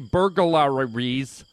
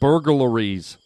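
First: Each syllable of the word is overly articulated. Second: The word is said smoothly at a natural pace. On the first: The speaker calls it wrong. "I keep over-enunciating. I'm like" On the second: The speaker calls it right. "There it is"

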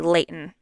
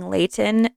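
First: The middle T is dropped. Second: The middle T is clearly pronounced. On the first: "they say Layton" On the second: "instead of saying Layton"

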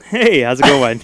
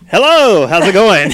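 First: The greeting is flat and low-energy. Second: The greeting is lively and high-energy.

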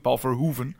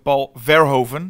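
First: The name is said with a Dutch accent. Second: The name is said with an American accent. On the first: This is how Americans do not say the name. "Zeggen ook niet" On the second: This is how Americans say the name. "Amerikaans zeggen ook"

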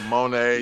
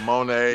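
First: The name is pronounced like 'Monet'. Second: The same.

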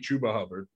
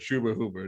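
First: The two names have different first vowel sounds. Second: Both names share the same first vowel sound. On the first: The speaker calls it wrong. "It can't be Chuba Hubbard" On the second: The speaker calls it right. "or Chuba Hubbard"

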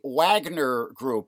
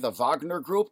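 First: Wagner is pronounced the English way. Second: Wagner is pronounced the German way.

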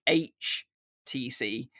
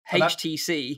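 First: The letter H is said the American way. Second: The letter H is said the non-American way. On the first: "in the US, it's pronounced" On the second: "because I say H"

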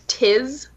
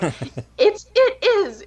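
First: It is squeezed into one short syllable. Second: It is said as two separate full words. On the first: This is how the British-born mother says it. The speaker calls it wrong. "It's only like certain words that she says, like tiz" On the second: This is the proper way to say it. The speaker calls it right. "It's not that hard. Like, just say it properly"

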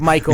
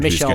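First: The name is given an English pronunciation. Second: The name is given a French pronunciation. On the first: "that's how you pronounce it" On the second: "but I say the French way"

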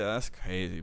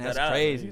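First: It is said flatly and dismissively. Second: It is said with sincere, genuine reaction. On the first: The listener wants the conversation to end. "It's to end the conversation like, as quickly as you can" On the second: The listener is genuinely surprised. "that's crazy could be a real response"

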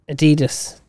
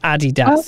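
First: Adidas is said in the speaker's own usual way. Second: Adidas is said the way the brand says it. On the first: The speaker calls it wrong. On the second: The speaker calls it right.

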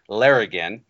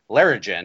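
First: The g is hard, as in go. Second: The g is soft, as in gem. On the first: The speaker calls it right. "confirmed that it is a hard G sound" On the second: The speaker calls it wrong. "in his reading, was, you know, pronounced it Larrigan"

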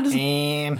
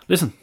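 First: It is said in an imitation of Joey's voice. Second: It is said in the speaker's normal voice.

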